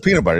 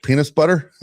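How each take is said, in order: First: Said in the usual way. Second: "peanut butter" said with an s in place of the t, as "penis butter"; pun mispronunciation. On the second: Retold or imitated. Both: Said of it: "he thought I said peanut butter".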